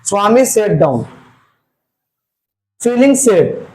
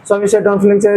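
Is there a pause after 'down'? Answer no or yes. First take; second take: yes; no. First: There is a short pause after 'down'. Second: It runs on with no pause after 'down'. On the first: The speaker calls it right. "Coma का मतलब क्या हुआ? वहां थोड़ा देर के लिए हम लोग को रुकना पड़ेगा" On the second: The speaker calls it wrong. "मतलब ऐसा नहीं"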